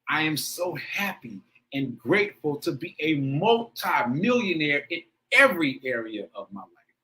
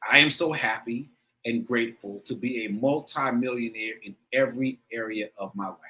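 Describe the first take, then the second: First: It is read with strong, heartfelt feeling. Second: It is read plainly, without much feeling.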